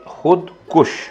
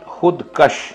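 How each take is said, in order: First: The second word has a 'u' vowel after 'k'. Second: The second word has an 'a' vowel after 'k'. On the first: The speaker calls it right. "यानी अपने आप को मारने वाला।" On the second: The speaker calls it wrong. "तो ये गलत है।"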